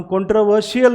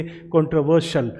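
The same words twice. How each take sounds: First: कंट्रोवर्शियल with a full "shi-yal" ending; wrong pronunciation. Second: कंट्रोवर्शियल ending in a short "shul"; correct pronunciation. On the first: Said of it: "कंट्रोवर्शियल नहीं बोलेंगे". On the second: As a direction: say कंट्रोवर्शियल as "contro-VER-shul". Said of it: "हम बोलेंगे". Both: Shown as a demonstration.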